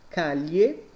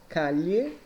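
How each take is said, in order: No difference in how they are said.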